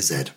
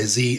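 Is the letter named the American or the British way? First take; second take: British; American. First: The letter is named the British way. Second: The letter is named the American way. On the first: "and we say Z" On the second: "why do Americans say Z"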